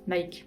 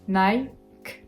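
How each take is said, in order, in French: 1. La voyelle sonne comme un 'ee' français. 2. La voyelle sonne comme 'eye', en finissant sur k. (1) "On prononce pas le i à la française parce que sinon" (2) "On s'arrête au k"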